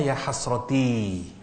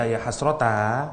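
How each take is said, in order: First: "Ya hasroti" said slowly, ending on a clear i; slow teaching read of "Ya hasroti"; original ending in i. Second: "Ya hasrota" said slowly, ending on an open a; slow teaching read of "Ya hasrota"; ending changed to a. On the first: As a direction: stretch "hasroti" and land on the i. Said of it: "Aslinya bahasa Arabnya". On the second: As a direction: stress the final a of "hasrota". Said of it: "kenapa kok dibaca". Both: Shown as a demonstration.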